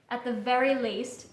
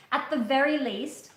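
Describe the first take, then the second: No difference in how they are said.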